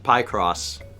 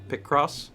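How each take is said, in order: First: The first syllable rhymes with 'pie'. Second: The first syllable rhymes with 'pick'. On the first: "But I always said pie cross" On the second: "it's like picture cross"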